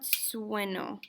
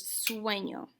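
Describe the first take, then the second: First: Sueño said like sueno, plain n, no ny glide; wrong sueño without tilde. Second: Sueño with ñ as ny, swen-yo; sueño with the tilde. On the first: Teacher shows students the mistake, sueño said like sueno. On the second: Teacher gives students the correct sueño, ñ said as ny. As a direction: give sueño its ny sound. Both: Shown as a demonstration. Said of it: "Notice that there's a tilde".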